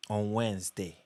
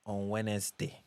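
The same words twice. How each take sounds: The two takes are said the same way.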